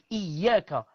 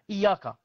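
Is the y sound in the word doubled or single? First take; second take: doubled; single. First: The y sound is held long and doubled. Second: The y sound is short and single. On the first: The speaker calls it right. "au lieu de dire Iyaka avec euh, shidda" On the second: The speaker calls it wrong. "comme ça. Il n'y a pas le, le shidda"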